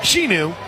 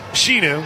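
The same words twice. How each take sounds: The two takes are said the same way.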